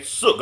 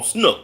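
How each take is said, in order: First: "Sook" with no n; short "Sook", a misreading of Snook; mispronounced name. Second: "Snook" with an n after the S; self-corrected "Snook", n put back in; corrected name. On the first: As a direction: say "Sook", the n dropped after the S. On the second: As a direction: say "Snook", sn- at the start. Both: Real, not acted. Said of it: "I'm saying it wrong".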